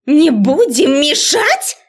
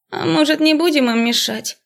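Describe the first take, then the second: First: Высокий, растянутый возмущённый крик; переспроси гневно, перекрикивая гам; яростный окрик. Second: Высокий меланхоличный девичий голос; предложи мечтательно, без спешки; меланхолично. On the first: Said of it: "гаркнула разозлённая до предела профессор". (разъярённая преподавательница, громко и протяжно) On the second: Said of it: "Чей-то меланхоличный голос". (меланхоличный голосок среди общего шума) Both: A narrator's reading.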